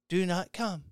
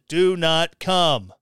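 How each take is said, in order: First: The phrase is said quietly and without force. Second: The phrase is said loudly and with force. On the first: The warning is meant weakly and half-heartedly. The speaker calls it right. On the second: The warning is meant firmly and with authority. The speaker calls it wrong.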